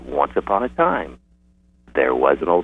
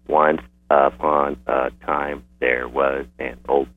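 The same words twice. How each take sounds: First: It flows in phrases with breaks between them. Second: Each word is said separately, one at a time. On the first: The reader reads fluently. The speaker calls it right. "And so you have breaks, what Timothy Rosinski calls a phrase boundaries" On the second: The reader is struggling to decode. The speaker calls it wrong. "which is disfluent and word by word monosyllabic"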